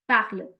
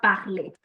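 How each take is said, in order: First: "parle" ending on a short schwa, no A sound; clipped ending. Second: "parler" ending in a clear A sound. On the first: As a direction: say "parle" with the final E barely there. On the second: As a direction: finish "parler" on a bright 'ay'. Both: Shown as a demonstration. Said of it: "not parler".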